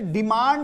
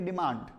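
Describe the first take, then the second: First: The d sound is pronounced hard and harsh. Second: The d sound is pronounced very softly. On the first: The speaker calls it wrong. "ये डिमांड नहीं होता है" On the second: The speaker calls it right. "ये जो डी है ना ये बहुत ही सॉफ्टली प्रोनाउंस करेंगे"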